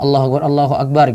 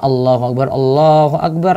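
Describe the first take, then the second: First: The phrase is said quickly and briskly. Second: The phrase is said slowly and drawn out. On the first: This is how the call to begin prayer is made. "gitu, cepat" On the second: This is how the call to prayer is made. "lambat, gak disebut cepat-cepat"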